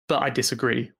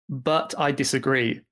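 First: The T in 'but' is weak, not released. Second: The T in 'but' is strongly released. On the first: The speaker calls it right. "without that strong T" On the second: The speaker calls it wrong. "it can sound weird if I say"

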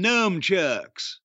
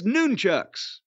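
First: The first syllable sounds like 'numb'. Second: The first syllable sounds like 'nun'. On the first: The speaker calls it wrong. "them nunchucks. That's the shit kickers. ... Did you say numb? Numb" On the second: The speaker calls it right. "if you're doing it right, if you're going to give them a nickname, it's nunchucks"

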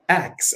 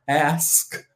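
First: It is said like axe. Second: It is said as standard ask.

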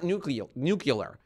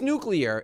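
First: It is said with the 'nu-cu-lar' sounds. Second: It is said with the standard 'nu-clear' sounds. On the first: The speaker calls it wrong. "it's not nuclear" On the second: The speaker calls it right. "did you know it's nuclear"

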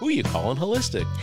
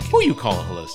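First: It is said flatly, without attitude. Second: It is said with sassy, neck-rolling attitude.

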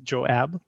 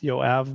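First: The name begins with a J sound. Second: The name begins with a Y sound. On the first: This is the English form of the name. "the English pronunciation is Joab" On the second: This is the original form of the name. "That's why it's Yoav"

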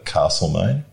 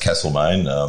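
First: The first vowel is long, as in 'car'. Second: The first vowel is short, as in 'cat'. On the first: This marks the speaker as being from elsewhere. The speaker calls it wrong. "It does distinguish one if you say Castlemaine" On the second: This is how locals say the town name. The speaker calls it right. "there's no R in Castle. ... Here, no, it's Castlemaine"

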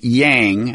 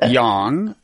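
First: The word has an Anglicized American vowel. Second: The word has a Mandarin-like vowel. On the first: This is the familiar American way of saying it. The speaker calls it wrong. "Americans are probably accustomed to pronouncing that pair of syllables" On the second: This is the authentic way of saying it. The speaker calls it right. "the correct pronunciation is yang"

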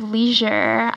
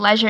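First: It is said with an American accent. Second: It is said with a British accent.

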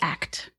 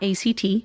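First: It is said as the single word act. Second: It is spelled out as three separate letters. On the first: The speaker calls it right. "It's ACT, because it is action-oriented" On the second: The speaker calls it wrong. "it's not ACT. It's a misnomer to say that"

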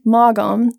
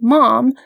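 First: The name is said with two syllables. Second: The name is said with one syllable. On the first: The speaker calls it wrong. "which I pronounce phonetically" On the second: The speaker calls it right. "It is actually pronounced Mom"

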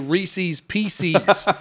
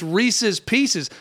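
First: The first word rhymes with 'feces', ending in 'seez'. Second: The first word ends in a short 'sez' sound. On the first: The speaker calls it wrong. "you don't want to rhyme a candy with feces" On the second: The speaker calls it right. "It's Reese's Pieces"

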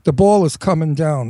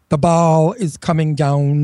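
First: It is said in a New York accent. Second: It is said in a trained, neutral accent. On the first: This is how it was actually said. "That's how I took the ball" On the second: This is how others wanted it said. "They wanted to train me to speak like"

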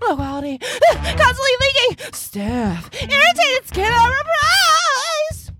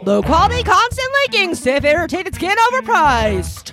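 First: It is said like an adult film voice. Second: It is said like a sports announcer.

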